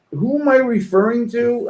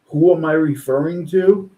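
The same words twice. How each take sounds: First: I said high and leaned on; sarcastic "who am I referring to", weight on "I"; stress on I. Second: "Who" gets the weight; stress on WHO. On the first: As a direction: push the word "I" up hard, mocking. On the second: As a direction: lean on "Who", the rest level. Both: Retold or imitated. Rereads the post's question, stressing differently.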